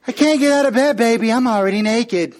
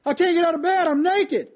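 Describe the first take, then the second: First: Higher, louder mock-coy teasing; wife teasing her husband from bed, higher and louder. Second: Higher, excuse-making wife voice; a mock put-upon refusal; wife answering her husband from bed, higher voice; refusing wife. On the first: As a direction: tease him with a mock-coy excuse. Wife teasing to torture him.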